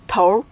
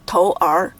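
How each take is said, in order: First: "头" as one r-coloured syllable, tour; combined erhua syllable. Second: "头儿" apart as tou, then er; two separate syllables. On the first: Teacher combining two characters, "头" with merged r. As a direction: blend an r onto the end of "头". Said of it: "the sounds of these two characters are combined". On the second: Teacher contrasting the unmerged reading, "头儿" in two syllables. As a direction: sound both characters of "头儿" without blending. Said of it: "instead of". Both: Shown as a demonstration.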